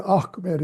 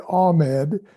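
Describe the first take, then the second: First: "Ahmed" as AKH-med, with a guttural h; Arabic-style "Ahmed", throaty catch before the m; Ahmed from the throat. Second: "Ahmed" as AH-med, the h left silent; anglicized "Ahmed", nothing from the throat; Ahmed without throat sound. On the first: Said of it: "it comes from the throat". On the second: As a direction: say "Ahmed" smoothly, with no guttural sound. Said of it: "you don't say Ahmed". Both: Shown as a demonstration.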